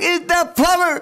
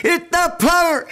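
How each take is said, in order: Both takes have the same delivery.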